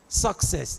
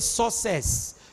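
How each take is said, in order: First: The middle k sound is clearly pronounced. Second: The middle k sound is left out. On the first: The speaker calls it right. "The K must be pronounced" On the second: The speaker calls it wrong. "You don't say success"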